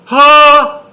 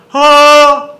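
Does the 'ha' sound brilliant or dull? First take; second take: brilliant; dull. First: The sound is bright and strongly resonant. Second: The sound is plain and less resonant. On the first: The speaker calls it right. "See, it's more brilliant, no?" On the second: The speaker calls it wrong. "if you just say this"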